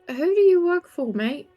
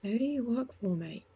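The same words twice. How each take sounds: First: It is said in a normal, unwhispered voice. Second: It is said lower in pitch and whispered.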